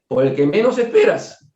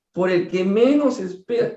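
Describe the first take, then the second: First: Said in the usual way. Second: "menos" drawn out and rising in a slow "por el que menos esperas"; slow emphatic repeat. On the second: Shown as a demonstration. Hammering home the warning to the audience, slower. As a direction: repeat it slowly, leaning hard on "menos".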